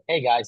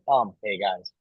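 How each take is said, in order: First: A silent pause comes before the greeting. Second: A filler 'um' comes before the greeting.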